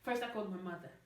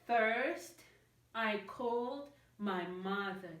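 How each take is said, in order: First: The words run together with no pauses. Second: Small pauses separate the words. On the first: The speaker calls it right. "I'm just going to say the sentence in one go, like this" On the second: The speaker calls it wrong. "There's like little breaks"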